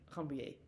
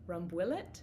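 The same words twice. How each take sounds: First: The word is pronounced with French sounds. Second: The word is pronounced with English sounds. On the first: "in a more French way" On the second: "How would you say that Englishly?"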